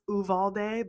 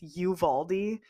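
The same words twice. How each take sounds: First: The name is said as its spelling suggests. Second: The name is said the way locals say it. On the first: The speaker calls it wrong. "it looks like it's supposed to be pronounced Uvalde" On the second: The speaker calls it right. "but it's Uvalde"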